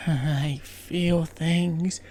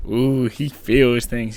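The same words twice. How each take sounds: First: Very slow, breathy-free soulful drawl; "I feel things" stretched very slowly and dreamily; mock soulful. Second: Lower, slow teasing coo; "Ooh, he feels things" cooed low and slowly in teasing; mock swooning. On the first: Couple staring into each other's souls, very slow dreamy. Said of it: "staring in each other's souls and being like". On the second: Viewer teasing the dreamy sailor, slow mocking coo.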